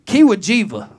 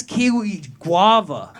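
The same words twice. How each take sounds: First: Kiwajiva as one garbled word, KEE-wuh-JEE-vuh; mangled flavor name. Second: Slow, loud KIWI GUAVA, two distinct words; corrected flavor name. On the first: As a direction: misread kiwi guava confidently as Kiwajiva. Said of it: "what the fuck's a Kiwajiva". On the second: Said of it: "Oh, dude, that's kiwi guava". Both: Retold or imitated.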